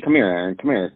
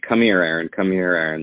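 First: It sounds like a light, friendly voice. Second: It sounds deeper, serious and threatening.

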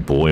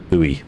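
First: It is said as one syllable, like 'boy'. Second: It is said as two syllables, like 'boo-ee'. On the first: "boy as in the nautical boy" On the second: "as our Americans would say"

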